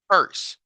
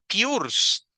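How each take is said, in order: First: The vowel is a short 'er' sound. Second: The vowel is a long 'oo' sound. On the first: The speaker calls it right. "la palabra se pronuncia purse" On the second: The speaker calls it wrong. "Ni tampoco es una U larga, porque la U larga es U. Sería pures, tampoco"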